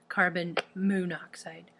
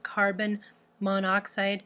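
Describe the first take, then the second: First: The o before oxide is said twice. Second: The o before oxide is said only once. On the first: The speaker calls it wrong. "not carbon monoxide" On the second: The speaker calls it right. "So we would call this carbon monoxide"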